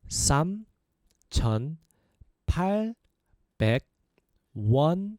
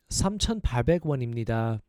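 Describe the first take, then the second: First: It is said at a slower pace. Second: It is said at a faster pace.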